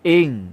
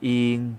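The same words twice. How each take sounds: First: The syllable is said short and abrupt. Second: The syllable is said on a level mid tone. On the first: "จะเป็นเสียงวรรณยุกต์โทเสียงจะสั้น" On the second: "เสียงสามัญ"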